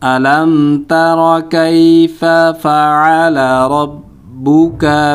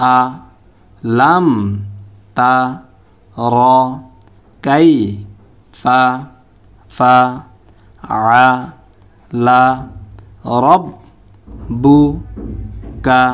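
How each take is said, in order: First: All the words run together slowly without breaks. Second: Every syllable is said separately with breaks. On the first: "এখন পুরো একসাথে উচ্চারণ করব। প্রথমে একটু স্লোভাবে" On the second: "এখন আমরা ভাঙ্গা ভাঙ্গা উচ্চারণ করব।"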